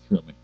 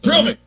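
First: It is said flatly, with little energy. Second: It is said with lots of gusto.

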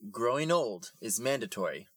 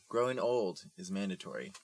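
First: It is said louder. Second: It is said at normal volume.

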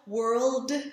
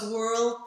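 First: The final d is voiced with a slight release. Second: The final d is voiceless with no release. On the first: The speaker calls it right. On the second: The speaker calls it wrong.

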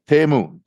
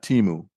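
First: The first syllable sounds like 'teh'. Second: The first syllable does not sound like 'teh'. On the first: The speaker calls it right. "It's pronounced Temu. ... T-E-H-M-O-O" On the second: The speaker calls it wrong. "not Timu"

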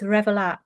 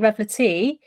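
First: The name ends on the final "t" sound. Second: The name ends with an added "ee" vowel. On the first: The speaker calls it right. "but I think it's Revelat" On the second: The speaker calls it wrong. "I kept calling it Revelatee"

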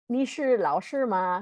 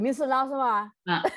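First: It is said in standard Mandarin pronunciation. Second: It is said with a regional local accent. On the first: "instead of saying like" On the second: "They'd be like"

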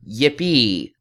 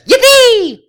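First: It is said slowly and calmly. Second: It is said fast and intensely.

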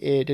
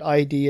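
First: The name is said as one short word. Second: The name is spelled out as two letters. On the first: The speaker calls it right. "nope, it's actually ID" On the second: The speaker calls it wrong. "when I called it ID"

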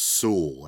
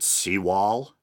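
First: The name sounds like sue followed by a short el. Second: The name sounds like the words sea and wall. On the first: The speaker calls it right. "I believe it is pronounced Sewell" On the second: The speaker calls it wrong. "I think I pronounced it Seawall, like a wall at the sea"

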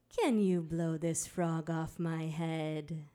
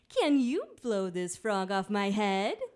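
First: It is said calmly and gently. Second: It is said in a bouncier, livelier way.

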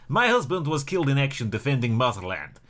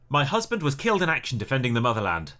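First: It is said in a put-on Russian accent. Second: It is said in the speaker's plain accent.

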